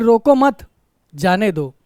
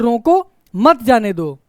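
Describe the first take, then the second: First: The pause comes right after 'mat'. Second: The pause comes right after 'roko'.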